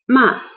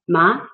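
First: The pitch drops sharply from high to low. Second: The pitch rises from middle to high. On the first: The word means to scold. "the fourth dropping tone is ma" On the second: The word means numb. "And the second rising tone"

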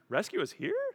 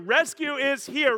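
First: It rises like a question. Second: It is said with joyful excitement.

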